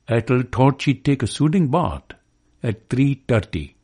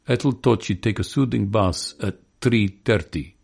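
First: It is said in a Pakistani accent. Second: It is said in a Russian accent. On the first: "or a Pakistani says" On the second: "or a Russian says"

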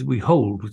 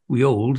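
First: The h at the start of hold is pronounced. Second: The h at the start of hold is dropped. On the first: "So we had the H" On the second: "Instead of Shakespeare's we old these truths"

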